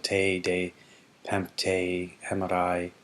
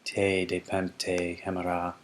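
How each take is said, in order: First: The last word ends with an added 'i' sound. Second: The last word ends without an 'i' sound.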